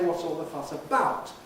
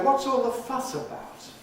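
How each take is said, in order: First: The nucleus is on 'about'. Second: The nucleus is on 'fuss'. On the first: The speaker calls it wrong. "Why don't we say" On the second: The speaker calls it right. "by default, it's placed on the last content word"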